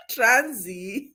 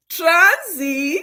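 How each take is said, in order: First: Said in the usual way. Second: "Transi" said the Nigerian way, high and bright; Nigerian accent. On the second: Shown as a demonstration. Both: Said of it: "Na in Nigerian accent".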